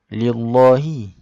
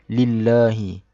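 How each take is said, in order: First: The l sounds thick and heavy. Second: The l sounds thin and light. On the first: The speaker calls it wrong. "Kita tak baca lillahi" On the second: The speaker calls it right. "dibaca secara nipis"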